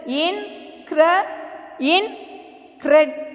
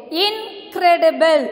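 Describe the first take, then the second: First: "incredible" broken into slow beats with gaps; "incredible" pulled apart to count four syllables. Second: Said in the usual way. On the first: Shown as a demonstration. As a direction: say "incredible" as in, cre, di, ble. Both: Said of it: "So you have four".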